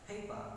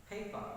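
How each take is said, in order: The two takes are said the same way.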